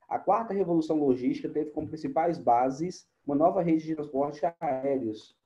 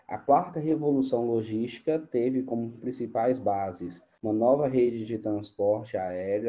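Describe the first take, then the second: First: It is read at a normal speed. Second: It is read more slowly.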